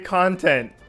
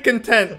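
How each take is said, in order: First: The stress is on the first syllable. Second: The stress is on the second syllable. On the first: It means material for a show. The speaker calls it right. "Say content" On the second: It means feeling satisfied. The speaker calls it wrong. "Don't say content like like you're satisfied"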